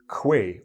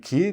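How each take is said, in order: First: It begins with a kw sound, like 'kway'. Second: It begins with a plain k, like 'key'. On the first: The speaker calls it wrong. "You will say quay or quai" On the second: The speaker calls it right. "the way we say it is actually key"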